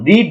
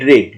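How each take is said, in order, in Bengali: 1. স্বরধ্বনিটি দীর্ঘ, 'seed'-এর সাথে মেলে। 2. স্বরধ্বনিটি হ্রস্ব, 'bed'-এর সাথে মেলে। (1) "রিড মানে পড়া" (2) "রেড যখন পাস্ট টেন্স তখন কিন্তু আমাদের রেড বলতে হবে"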